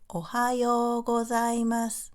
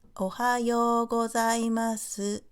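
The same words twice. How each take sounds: First: The final su is said very quietly. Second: The final su is said clearly, with a full u. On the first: The speaker calls it right. "We don't clearly speak su at the end of the sentence" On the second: The speaker calls it wrong. "we don't say"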